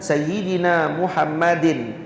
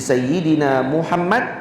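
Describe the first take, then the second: First: The name ends with an added -in ending. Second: The name ends abruptly on the final consonant. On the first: The case ending is pronounced, which breaks the verse. The speaker calls it wrong. "Kalau dibaca Sayyidina Muhammadin ... Tak boleh nak baca" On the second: The ending is dropped to fit the verse. The speaker calls it right. "Jadi Sayyidina Muhammad"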